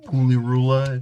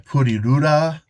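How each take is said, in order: First: The name is said with an American accent. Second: The name is said with Japanese-style sounds. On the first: "if you want to American the accent" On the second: "That's such a mouthful of a game"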